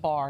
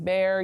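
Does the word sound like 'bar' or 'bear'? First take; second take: bar; bear. First: The vowel sounds like the one in 'bar'. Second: The vowel sounds like the one in 'bear'. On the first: The speaker calls it right. "Bar, not bear" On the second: The speaker calls it wrong. "not bear. I said that wrong"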